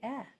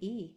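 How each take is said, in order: First: The vowel is short, a clipped eh sound. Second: The vowel is long, like the letter name. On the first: The speaker calls it right. "Eh is a short vowel" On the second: The speaker calls it wrong. "make it say its name"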